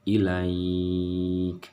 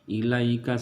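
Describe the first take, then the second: First: The word ends in a stop with a lengthened vowel. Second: The word runs straight on with a short vowel. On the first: The reading stops at this word. "maka dia harus dibaca panjang ilaikanya" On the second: The reading continues into the next word. "jadi langsung ilaikanya"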